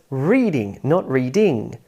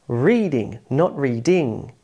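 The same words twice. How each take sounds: No difference in how they are said.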